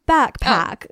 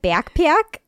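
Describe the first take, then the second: First: The word has a neutral, unmarked accent. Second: The word has a strong Midwestern accent. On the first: The speaker calls it right. "say normal, like backpack" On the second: The speaker calls it wrong. "it really comes out when I say backpack. Apparently it sounds like backpack"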